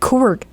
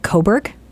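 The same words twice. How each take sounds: First: The word is said fast and run together. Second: The word is said slowly with clear sounds. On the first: This is how the mother says it. "she says it so quickly" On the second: This is how the speaker says it. "I'll repeat it back to her"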